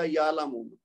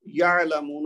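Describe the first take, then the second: First: یعلمون with ain said as a glottal stop; ع turned to hamza. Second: یعلمون with a clear throaty ain, said slowly; correct ain. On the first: Teacher showing the wrong way, ain as hamza. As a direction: say یعلمون with a plain catch instead of ain. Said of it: "اس کو پڑھنے والا بولے گا". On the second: Teacher demonstrating the correct ain in slow speech. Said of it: "کی بجائے". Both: Shown as a demonstration.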